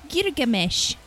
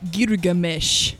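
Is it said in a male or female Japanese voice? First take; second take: female; male. First: It is said in a female Japanese voice. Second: It is said in a male Japanese voice.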